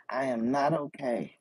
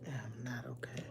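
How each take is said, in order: First: Louder, emphatic admission of upset; not okay. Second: Quiet, deflated repeat; not okay. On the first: Venting to live viewers after a car accident, upset and emphatic. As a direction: press hard on the word "not". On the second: Admitting to live viewers she is upset, quietly deflated. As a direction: let it drop almost to a murmur. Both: Real, not acted.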